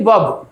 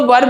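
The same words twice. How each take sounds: First: वर्ब said as vab, R dropped; silent R. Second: वर्ब with a clear R before the B; R sounded. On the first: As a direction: leave the R out of वर्ब. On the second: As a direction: say वर्ब as varb, R pronounced. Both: Shown as a demonstration. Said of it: "आर बिल्कुल silent है".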